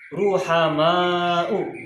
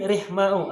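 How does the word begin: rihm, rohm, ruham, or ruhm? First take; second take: ruham; rihm. First: It begins 'ruham' with a vowel after h. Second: It begins 'rihm' with no vowel after h. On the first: The speaker calls it right. "cara bacanya adalah ruhama'u" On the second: The speaker calls it wrong. "mungkin rihma'u"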